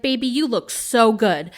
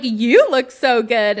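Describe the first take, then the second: First: Said in the usual way. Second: "You" stretched and punched louder; stress on YOU. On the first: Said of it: "he's like". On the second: Retold or imitated. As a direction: throw the compliment back, leaning hard on "You". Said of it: "she's like".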